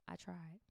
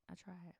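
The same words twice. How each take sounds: First: "I tried" murmured softly after the name; soft aside. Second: "I tried" even softer, fading out; softer aside. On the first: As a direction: drop it to a near murmur. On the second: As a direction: let it fade to almost nothing. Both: Real, not acted.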